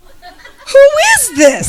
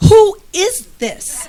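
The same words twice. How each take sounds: First: Much higher, louder, very slow laughing shout of "Who is this?"; delighted squeal. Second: Higher, slow, laughing "Who is this?"; amused disbelief. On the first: As his texts keep coming, a delighted laughing shout. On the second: To her husband's flirty text, laughing high and slow. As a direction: giggle it out, stretching "Who is this?" in happy disbelief. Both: Retold or imitated. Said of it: "I'm like".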